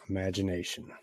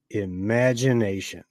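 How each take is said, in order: First: Soft, dreamy half-whisper; a hushed wonder; hushed musing. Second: Said in the usual way. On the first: Acted. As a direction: breathe the word as if lost in thought. Muses on his wild idea.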